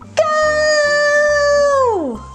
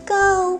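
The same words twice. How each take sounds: First: It is said very loudly. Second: It is said at medium volume.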